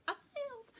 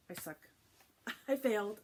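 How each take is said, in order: First: Very high-pitched mock lament; comic squeal. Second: Loud, high laughing confession; laughing admission. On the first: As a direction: squeak it out at the top of your range. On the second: Real, not acted. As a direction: burst out laughing at your own failure. Owns up to forgetting names.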